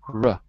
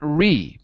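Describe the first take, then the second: First: The syllable has a very soft, reduced vowel. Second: The syllable has a full, clear vowel. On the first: The speaker calls it right. "It's a very soft vowel" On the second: The speaker calls it wrong. "Not re"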